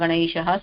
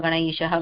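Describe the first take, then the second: The two takes are said the same way.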